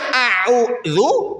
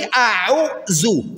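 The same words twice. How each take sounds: First: The middle consonant is a soft 'dh' sound. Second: The middle consonant is a buzzing 'z' sound. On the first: I seek refuge. The speaker calls it right. "Yang harusnya a'udzu" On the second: The meaning changes to something else. The speaker calls it wrong. "Bapak Ibu ganti a'udzu"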